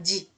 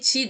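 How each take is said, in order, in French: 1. La première consonne est sonore. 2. La première consonne est sourde. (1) "chi devient ji" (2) "le son clair, le séon, c'est chi"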